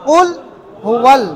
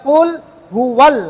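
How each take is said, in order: No difference in how they are said.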